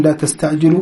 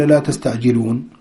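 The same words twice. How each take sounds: First: تستعجلوا ending on the واو with no نون; teacher stressing تستعجلوا without نون; correct form. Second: تستعجلون with the final نون sounded; the tempting wrong ending تستعجلون; wrong form. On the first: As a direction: say تستعجلوا cleanly ending in the vowel. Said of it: "ولا "لا تستعجلون"؟". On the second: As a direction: add the نون at the end of تستعجلون. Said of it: "ولا". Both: Shown as a demonstration.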